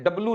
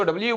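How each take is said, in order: First: डब्लू said as 'dub-loo'; mistaken letter name. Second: डब्ल्यू said as double-YOU; correct letter name. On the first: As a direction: show the wrong डब्लू without the 'y' sound. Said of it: "डब्लू नहीं बोलते". (डब्लू, बिना 'यू' का गलत उच्चारण) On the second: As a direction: model डब्ल्यू with a 'yoo' ending. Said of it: "इसको डब्ल्यू बोलते हैं". (डब्ल्यू, 'यू' के साथ सही उच्चारण) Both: Shown as a demonstration.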